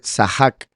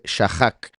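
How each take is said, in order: First: The word begins with an s sound. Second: The word begins with an sh sound. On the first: The speaker calls it right. "se está pronunciando como una S, por eso dice Sahak" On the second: The speaker calls it wrong. "no dice Shahak"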